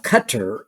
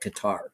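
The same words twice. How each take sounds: First: The name is said with its local pronunciation. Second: The name is said with an American pronunciation. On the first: This is how people in that region say it. "as they might say in that part of the, the, the world" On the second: This is how the speaker's own people say it. "but we would call it Qatar"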